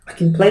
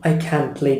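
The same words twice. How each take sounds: First: The word 'can' is said weakly and quickly. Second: The word 'can' is said with a full, strong vowel. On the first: The speaker calls it right. "Very weak" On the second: The speaker calls it wrong. "I don't say"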